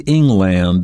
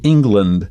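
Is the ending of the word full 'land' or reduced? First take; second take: full; reduced. First: The last syllable is a full 'land'. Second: The last syllable is reduced and weak. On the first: The speaker calls it wrong. "It may not be pronounced that way. For example, England. We don't say England" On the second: The speaker calls it right. "We say England, but at the end is land"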